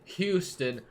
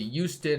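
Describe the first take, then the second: First: The word is pronounced carefully, with full sounds. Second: The word is pronounced lazily, with sounds dropped. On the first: This is how others expect it to be said. The speaker calls it right. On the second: This is how the speaker habitually says it. The speaker calls it wrong.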